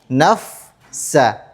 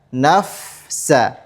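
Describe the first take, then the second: Both takes have the same delivery.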